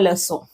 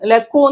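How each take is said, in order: First: The middle consonant is a soft S sound. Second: The middle consonant is a hard K sound. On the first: The speaker calls it right. "ഇതിന് സ സൗണ്ട് വരുന്നത്" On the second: The speaker calls it wrong. "ലക്കൂ എന്നല്ല പറയുന്നത്"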